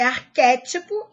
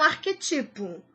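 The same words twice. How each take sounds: First: "arquétipo" stressed ar-QUÉ-ti-po; correct stress. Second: "arquetipo" stressed ar-que-TI-po; wrong stress. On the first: Teacher giving the correct form, stress on QUÉ. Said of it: "O certo é". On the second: Teacher warning against an error, stress on TI. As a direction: move the weight to TI in "arquetipo". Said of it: "e não". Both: Shown as a demonstration.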